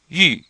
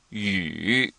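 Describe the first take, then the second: First: The pitch falls sharply from high to low. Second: The pitch dips low and then rises. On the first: "it's fourth tone, so it sounds like yu" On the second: "It's not fourth tone, it's yu. It's the third tone"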